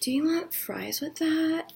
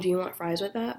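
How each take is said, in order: First: It is said in a sultry, seductive voice. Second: It is said in a plain, ordinary voice. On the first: It sounds like she is coming on to them. "so it's like" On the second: It is a simple question about food. "But that's not her voice"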